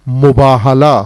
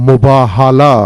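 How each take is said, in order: Both takes have the same delivery.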